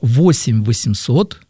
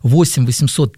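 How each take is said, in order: First: The number is said slowly and deliberately. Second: The number is said quickly and briskly. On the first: "могу даже сказать помедленнее" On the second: "так запоминать бодро, как я это говорю"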